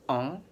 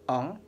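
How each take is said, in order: The two takes are said the same way.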